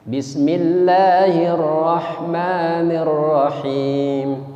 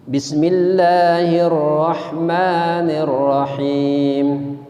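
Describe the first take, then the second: The two takes are said the same way.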